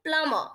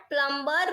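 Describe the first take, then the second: First: પ્લમ્બર said plumer, no b sound; પ્લમ્બર with the b silent. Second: પ્લમ્બર said plum-ber with the b sounded; પ્લમ્બર with an audible b, marked as wrong; wrong pronunciation with b. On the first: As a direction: drop the b: પ્લમ્બર as plum-er. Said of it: "શું આપણે બોલીશું?". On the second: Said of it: "પ્લમ્બર wrong છે". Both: Shown as a demonstration.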